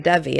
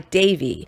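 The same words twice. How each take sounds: First: The name gets its common popular pronunciation. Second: The name gets its classical Sanskrit pronunciation. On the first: This is how people usually said her name. "everybody pronounced her name Indra Devi" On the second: This is the traditional way to say the word. "classically you would pronounce D E V I, Devi"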